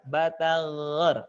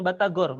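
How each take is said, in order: First: "batagor" with long throaty gh; soft gha. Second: "batagor" with an everyday hard g. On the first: Teacher drills through food names, soft-g "batagor". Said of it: "pakai go". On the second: Teacher shows what to avoid, hard-g "batagor". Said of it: "jangan batagor". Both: Shown as a demonstration.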